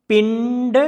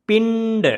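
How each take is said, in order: The two takes are said the same way.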